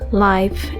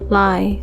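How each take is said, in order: First: The final f sound is clearly pronounced. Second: The final f sound is dropped. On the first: The speaker calls it right. "instead of" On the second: The speaker calls it wrong. "I'm hearing things like"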